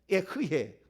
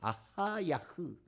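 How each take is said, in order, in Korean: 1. 이 이름은 eh-heu-yeh처럼 들려요. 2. 이 이름은 a-ha-ya-heu처럼 들려요. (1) "에흐예는 이것도 어, 정확하지 않습니다" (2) "아하야흐 이렇게 불러야 돼요"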